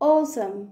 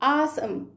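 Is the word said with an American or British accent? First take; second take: British; American. First: The first vowel is a rounded British 'aw' sound. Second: The first vowel is an open American 'ah' sound. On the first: "British English accent అయితే ఓసమ్" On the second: "అదే American అయితే ఆసమ్"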